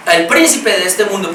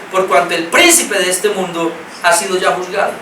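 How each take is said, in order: First: "príncipe" leaned on, the phrase said carefully; stress on príncipe. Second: Said in the usual way. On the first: Shown as a demonstration. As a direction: give "príncipe" the weight. (énfasis en "príncipe") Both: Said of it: "quiero enfatizar la palabra príncipe".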